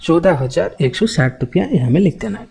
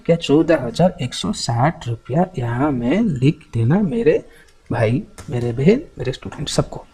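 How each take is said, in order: First: Said in the usual way. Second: Word-by-word singsong up to देना; singsong dictation, देना lifted at the end, then trailing softer. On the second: Real, not acted. Repeats dictation, coaxing all students.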